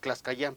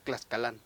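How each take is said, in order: First: The middle consonant sounds like a y. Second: The middle consonant sounds like an l. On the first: This is how people commonly know the name. The speaker calls it wrong. "nosotros le decimos Tlaxcayán, porque así lo ubica la gente" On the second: This is the original Nahuatl form of the name. The speaker calls it right. "el doble L ya no se pronuncia, sino es Tlaxcalán"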